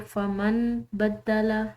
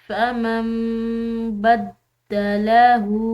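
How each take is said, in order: First: A clear n sound comes before the b. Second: An m sound replaces the n before b. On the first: The speaker calls it wrong. "इस तरह नहीं पढ़ेंगे" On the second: The speaker calls it right. "हम नून को नहीं पढ़ेंगे बल्कि उसकी जगह मीम पढ़ी जाएगी"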